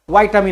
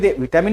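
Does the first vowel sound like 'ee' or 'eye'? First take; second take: eye; ee. First: The first vowel is an 'eye' sound. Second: The first vowel is a short 'i' sound. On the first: The speaker calls it right. "व्हायटामिन आहे" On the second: The speaker calls it wrong. "व्हिटॅमिन नाही"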